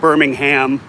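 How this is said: Birmingham is pronounced the American way. "if you want the U S pronunciation"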